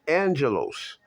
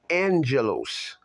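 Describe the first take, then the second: First: It is said with an n sound before g. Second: It is said with an n sound before g.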